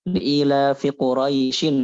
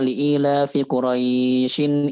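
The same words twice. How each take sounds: First: The vowel in Quraisyin is kept short. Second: The vowel in Quraisyin is held long. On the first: The speaker calls it right. "harusnya kayak gitu kan" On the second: The speaker calls it wrong. "Tapi kita baca"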